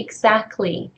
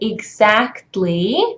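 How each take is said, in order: First: The t sound before the ending is dropped. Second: The t sound before the ending is pronounced. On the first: "the word is reduced. You just say exactly" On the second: "theoretically, that's the pronunciation"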